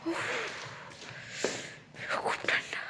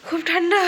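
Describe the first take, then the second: First: Whispering. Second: Louder, higher cry; loud exclamation. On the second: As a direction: call it out, loud and high. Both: Real, not acted. Very cold.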